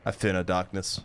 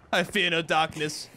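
First: Very low-pitched heroic line; low declaration. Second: Bolder take in mid pitch; raised declaration. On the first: Gamer declaring bravery to himself, low-pitched declaration. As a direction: say it deep down in your range. Hero line said two ways. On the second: Gamer declaring bravery before throwing a grenade, mid-pitched declaration. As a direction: declare it at normal speaking pitch. Hero line repeated higher. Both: Acted.

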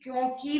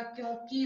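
First: क्योंकि stretched to end in long kee; wrong long ending. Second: Said in the usual way. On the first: Shown as a demonstration. Teacher showing a misspelling, क्योंकि with long kee ending. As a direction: hold the final ee of क्योंकि. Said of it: "नहीं होता". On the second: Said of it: "होता है".

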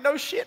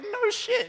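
First: High, rising disbelief; amazed Jesus. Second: Very high, falling echo; emphatic confirmation. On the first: Jesus reacting to news of monks learning Kung Fu, amazed. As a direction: say it as a wide-eyed question. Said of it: "Jesus would be like". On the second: Friend echoing Jesus about the Kung Fu monks, emphatic confirmation. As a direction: confirm it firmly, pitched right up. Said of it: "And I'd be like". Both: Acted.

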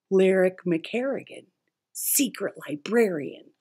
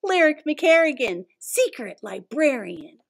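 First: Said in the usual way. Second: Dramatic title announcement. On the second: Acted.

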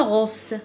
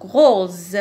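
First: "rose" mispronounced with a hissing S for the Z; wrong S sound. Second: "rose" with a buzzing Z at the end; teacher's model "rose", S sounded as Z; voiced Z sound. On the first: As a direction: say "rose" as if written "rosse". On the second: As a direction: say "rose" ending in a voiced, held Z. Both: Shown as a demonstration. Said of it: "Je ne dis pas rose".

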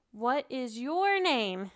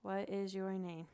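First: "What is your name?" said slowly and louder, leaning on "your"; slow model question. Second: "What is your name?" echoed back quieter, falling on "is"; student echoing. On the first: Shown as a demonstration. Teacher modelling the question slowly for a student to copy. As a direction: model "What is your name?" with each word drawn out and hitting "your". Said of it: "And you're like". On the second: Retold or imitated. Student wrongly repeats the teacher's question in a mild echo. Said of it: "And they're like".

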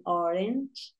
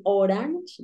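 First: "orange" with the A as an E, "OR-ench"; "orange" with a softer, quieter e in the second syllable; correct orange. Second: "orange" with a full Spanish a, "o-RANCH"; "orange" read by its spelling, "oh-ranch"; mispronounced orange. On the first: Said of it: "como si la A fuese una E". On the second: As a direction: say "orange" wrongly with an open A. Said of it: "no dicen orange, ... como si la A fuese una E". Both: Shown as a demonstration.

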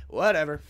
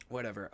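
First: Loud shrugging whatever; loud dismissive. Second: Soft resigned whatever; muttered dismissal. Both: Real, not acted.

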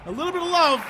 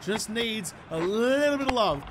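First: Affectionate repeat. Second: Said in the usual way. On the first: Shown as a demonstration. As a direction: croon "A little bit of love" up high and louder.

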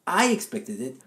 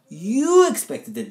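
First: "I" leaned on with a rising finish; stress on I. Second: "You" punched louder and slowed right down; stress on YOU. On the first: Co-host stressing who expected the hit, stress on I. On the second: Turning it back on his partner, stress on YOU. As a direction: drag out "You expected it", leaning on "You". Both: Shown as a demonstration.

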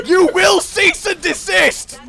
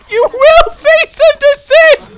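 First: High, slow command without shouting; exasperated command. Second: Very high, loud, slow shriek; screamed command. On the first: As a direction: draw the order out at a high pitch. Ordering opponent to stop. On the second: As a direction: scream the order, drawing out each word. Same order repeated, now shouted. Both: Real, not acted.

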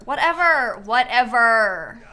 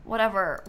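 First: Exasperated drawn-out whatever. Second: Said in the usual way. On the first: Pretend. Dismissive whatever, drawn out louder.

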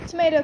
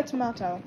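First: Said in the usual way. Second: "tomato" said tom-AH-to; alternate pronunciation. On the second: Shown as a demonstration. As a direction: say "tomato" with a broad "ah" in the middle. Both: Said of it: "There is no alternate pronunciation".

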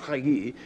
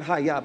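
First: HAYI ending in "ee"; correct form HAYI. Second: HAYA ending in an open "ah"; rejected form HAYA. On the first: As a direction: say "hayi" with a final "yee" sound. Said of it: "hayi, not haya, but hayi". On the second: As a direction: say "haya" with a final "yah" sound. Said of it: "not haya". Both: Shown as a demonstration.

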